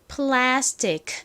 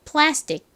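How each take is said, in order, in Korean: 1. 천천히 또박또박 발음했어요. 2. 빠르게 발음했어요. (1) "천천히 또박또박 발음을 해보면" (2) "빠르게 발음을 하면요"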